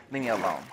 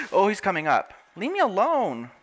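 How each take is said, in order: First: Said in the usual way. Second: High, loud scared plea; panicked. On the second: Real, not acted. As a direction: back away from the monster in panic. Drowned rises from the water.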